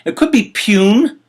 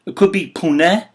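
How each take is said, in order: First: Pune in one syllable, rhyming with tune; Pune said as pyoon. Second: Pune in two syllables, poo-neh; Pune said as poo-nay. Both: Shown as a demonstration. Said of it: "I don't know 'cause I'm, I, I don't speak Indian".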